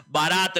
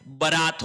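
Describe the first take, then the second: First: बारात with long first vowel, "baa-raat"; wrong pronunciation. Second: बारात with short first vowel, "ba-raat"; correct pronunciation. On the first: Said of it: "बारात नहीं होता है". (बारात का पहला स्वर लंबा "बा") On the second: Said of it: "बारात होता है". (बारात का पहला स्वर छोटा "ब") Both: Shown as a demonstration.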